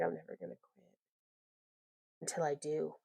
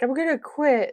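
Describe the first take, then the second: First: Dropped, much softer, half to herself; softer mock-serious vow; mock resolve. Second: Hammed-up melodrama, higher and louder; mock-dramatic threat to quit. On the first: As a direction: mutter the vow with a wry undercut. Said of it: "And then it's like". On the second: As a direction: throw it out like a diva storming off. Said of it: "just get, like, really dramatic".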